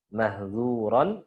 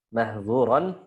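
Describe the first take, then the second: Both takes have the same delivery.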